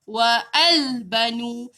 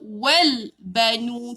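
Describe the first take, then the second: First: Wa and al are said as separate syllables. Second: Wa runs straight into the l sound. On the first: The speaker calls it wrong. "Kita tak baca wa al banu" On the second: The speaker calls it right. "tak payah baca dia wal banu"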